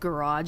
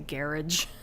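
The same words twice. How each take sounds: First: The word is said with an American pronunciation. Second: The word is said with a British pronunciation. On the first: "instead of garage" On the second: "pronounce words the way he did"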